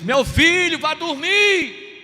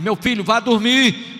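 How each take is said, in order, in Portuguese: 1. É gritada em volume muito alto. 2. É dita um pouco mais alta, com a voz elevada. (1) "aos berros, aos gritos" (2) "já com outro tom de voz, um pouquinho alta"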